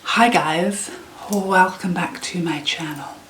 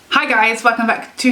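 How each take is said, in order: First: It is said quietly. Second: It is shouted loudly.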